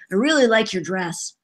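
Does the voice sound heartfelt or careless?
careless. A little boy's voice that doesn't care.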